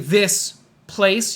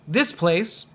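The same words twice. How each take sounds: First: The two words are said slowly and separately. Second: The two words are said quickly and joined. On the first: The speaker calls it wrong. "we don't say this place" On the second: The speaker calls it right. "You want to say it quickly because these words go together"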